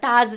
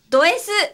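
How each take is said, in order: First: The name is pronounced 'daazu'. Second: The name is pronounced 'do-esu'. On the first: This is the official reading. The speaker calls it right. "本当は、ダーズです" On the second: This is the fans' nickname reading. The speaker calls it wrong. "思いっきり、ドヤ声で、ドS って言っちゃったんですけど"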